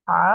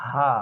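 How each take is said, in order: First: "হা" squeezed from mid-throat; throat-pressed h. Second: "হা" fully open, no throat pressure. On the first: Teacher showing the difference, throat-pressed "হা". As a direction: tighten the mid-throat through "হা". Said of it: "এটা গলার মাঝখানে চাপ দিয়ে". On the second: Teacher showing the difference, fully open "হা". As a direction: let "হা" flow from an open throat. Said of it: "একদম open". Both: Shown as a demonstration.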